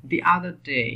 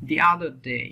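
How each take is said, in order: No difference in how they are said.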